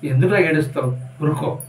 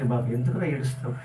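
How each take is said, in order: First: Said in the usual way. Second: Tender. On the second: Acted. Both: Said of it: "చూడండి ఎలా వచ్చిందో".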